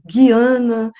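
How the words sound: The name is said with English pronunciation. "em inglês"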